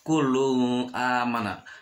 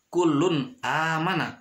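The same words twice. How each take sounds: First: The n sound is blurred into the next sound. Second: The n sound is pronounced clearly and separately. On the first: The speaker calls it wrong. "tapi tidak bisa dibaca kullun amana" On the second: The speaker calls it right. "harus jelas kullun amana"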